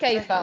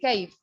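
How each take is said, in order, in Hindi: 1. शब्द के अंत में एक अतिरिक्त स्वर ध्वनि जुड़ी है। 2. शब्द व्यंजन ध्वनि पर समाप्त होता है। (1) "नॉट कैफा" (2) "for me it will be कैफ सेहतक"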